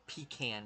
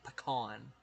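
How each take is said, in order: First: "pecan" said PEE-can; long ee at the start of "pecan"; PEE-can pronunciation. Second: "pecan" said puh-KAHN; puh-KAHN pronunciation. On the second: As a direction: open ah in the stressed end of "pecan". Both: Shown as a demonstration. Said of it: "say it in the different ways".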